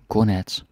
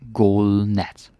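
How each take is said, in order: First: The phrase is said at a normal pace. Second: The phrase is said slowly and drawn out.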